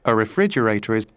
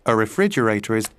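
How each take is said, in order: No difference in how they are said.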